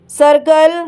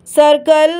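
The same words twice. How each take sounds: The two takes are said the same way.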